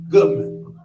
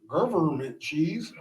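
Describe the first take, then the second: First: The word is said with a B sound. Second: The word is said with a V sound. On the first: The speaker calls it right. "government cheese with a B, G U B M E N T" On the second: The speaker calls it wrong. "if you say government cheese, just know we low key want to stab you"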